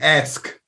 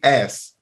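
First: The s sound comes before the final k. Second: The k sound comes before the final s. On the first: The speaker calls it right. "I say ask" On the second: The speaker calls it wrong. "I don't say ass"

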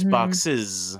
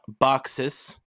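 First: The word ends with a voiced z sound. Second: The word ends with an unvoiced s sound. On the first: The speaker calls it right. "because the E is voiced" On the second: The speaker calls it wrong. "you would think, okay, it's a S ending. But it's not"

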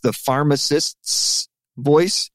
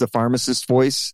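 First: The plural s before voice is clearly heard. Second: Said quickly, the s before voice disappears. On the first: The name is plural. "It's plural" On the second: The name may sound singular. "if you say it too quickly"

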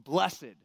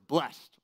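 First: It is said in an old-fashioned way. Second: It is said in the ordinary modern way.

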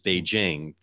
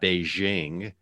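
First: The j is a hard 'j' sound. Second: The j is a soft 'zh' sound. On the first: The speaker calls it right. "The J is pronounced like a J" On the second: The speaker calls it wrong. "the capital of China is not Beijing"

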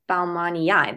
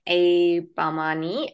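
First: The word ends in two separate vowel sounds. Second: The word ends in a single vowel sound. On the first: The speaker calls it right. "that is probably how you say it" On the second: The speaker calls it wrong. "I think I've been saying it wrong"

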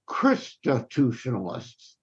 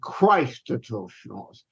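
First: The first syllable sounds like 'Christos'. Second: The first syllable sounds like 'Christ'. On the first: The speaker calls it right. "I go from the original Christos. So I pronounce it" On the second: The speaker calls it wrong. "rather than"

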